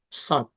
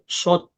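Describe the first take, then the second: First: The lips stay relaxed, not pushed forward. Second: The lips are pushed forward and rounded. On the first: The speaker calls it right. "Gitu cara nyebut shad" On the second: The speaker calls it wrong. "Bukan shot monyong"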